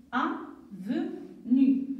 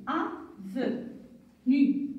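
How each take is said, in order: First: "Avenu" repeated slowly, syllables held. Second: Slowly stretched "Avenu", each syllable held. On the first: Teacher repeats "Avenu" slowly for the class. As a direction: echo "Avenu" slowly for pupils to copy. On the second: Teacher models "Avenu" slowly for pupils, stretched syllables. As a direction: draw out "Avenu" as a model for the class. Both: Shown as a demonstration. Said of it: "qui peut me lire la première syllabe?".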